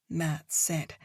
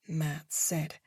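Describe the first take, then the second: No difference in how they are said.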